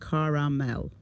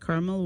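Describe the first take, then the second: First: The word is said with three syllables. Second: The word is said with two syllables. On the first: This is typical of the East Coast. "the East Coast pronounces it caramel" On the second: This is typical of the Midwest. "the Midwest tends to say caramel"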